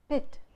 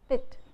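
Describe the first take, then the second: The two takes are said the same way.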